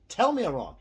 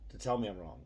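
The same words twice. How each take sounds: First: High, loud dare to prove him wrong; loud challenge. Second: Said in the usual way. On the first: Real, not acted. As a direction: shout the challenge at the viewers. Daring viewers to contradict him.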